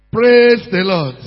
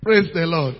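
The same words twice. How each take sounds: First: Loud, drawn-out call to the congregation; slow, forceful church call; emphatic call. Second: Said in the usual way. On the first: Real, not acted. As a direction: stretch it and push for a response. Repeats the call more forcefully.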